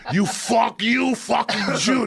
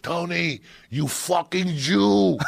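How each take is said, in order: First: High mock yell breaking into laughs; yell through laughter. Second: High, slow mock yell from behind the counter; imitated yell. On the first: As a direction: laugh while you shout it again. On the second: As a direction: bellow it like the angry pizza man. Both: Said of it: "he'd yell at the kid".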